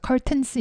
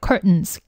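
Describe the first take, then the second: First: "curtains" with a crisp, fully released t, "cur-tains"; "curtains" said with a clear t, the way natives rarely say it; t sounded clearly. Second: "curtains" with the middle t swallowed, like "cur'ns"; "curtains" with a held-back t and a nasal n ending. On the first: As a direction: spell "curtains" out with a hard t in the middle. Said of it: "이렇게 발음은 거의 들리지 않아요". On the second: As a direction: say "curtains" with a stopped t and no t sound. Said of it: "curtains라고 하시면 됩니다". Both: Shown as a demonstration.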